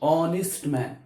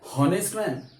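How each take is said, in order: First: The word begins directly with a vowel sound. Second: The word begins with an audible h sound. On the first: The speaker calls it right. "एच हा silent राहतो" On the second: The speaker calls it wrong. "हॉनेस्ट man नाही"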